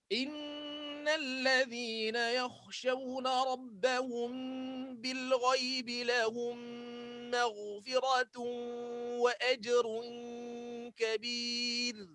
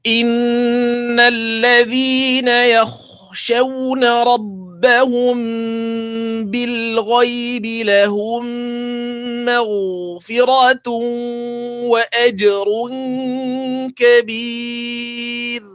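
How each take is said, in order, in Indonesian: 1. Ayat ini dibacakan dengan tempo paling cepat. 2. Ayat ini dibacakan dengan tempo sedang. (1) "Lagi cepat" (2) "ni saya baca tak berapa laju, tak berapa pelan"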